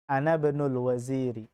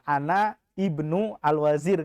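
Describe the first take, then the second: First: The words are linked together smoothly. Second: The words are said separately, not linked.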